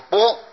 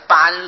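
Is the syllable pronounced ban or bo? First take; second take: bo; ban. First: The syllable is pronounced bo. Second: The syllable is pronounced ban. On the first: This is the special reading used in this term. "现在念作波" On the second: This is the character's ordinary reading. "本来是班字"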